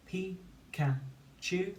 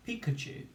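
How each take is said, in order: First: "Pikachu" very slow and higher, in three separate beats; syllable by syllable. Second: Said in the usual way. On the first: Shown as a demonstration. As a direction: chant "Pikachu" with gaps between syllables. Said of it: "Say the syllables one at a time". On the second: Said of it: "Say the syllables".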